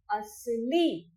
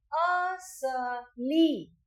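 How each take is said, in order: First: Said in the usual way. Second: असली drawn out in three syllables, a-sa-li; slowly stretched demo. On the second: Shown as a demonstration. Teacher leads children in repeating असली, very slow. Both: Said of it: "तो मेरे साथ बोलिए".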